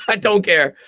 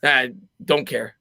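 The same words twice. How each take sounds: First: Laughing through the words. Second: Said in the usual way. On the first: Real, not acted. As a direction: shrug it off with a laugh.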